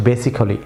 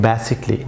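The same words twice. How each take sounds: First: Basically said with every letter, ba-si-ca-lly; wrong pronunciation. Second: Basically said in four syllables, ba-si-cli, silent a, slowly; correct pronunciation. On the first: Teacher shows learners the wrong basically, full ba-si-ca-lly. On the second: Teacher models correct basically for learners, a dropped. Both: Shown as a demonstration. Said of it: "not basically".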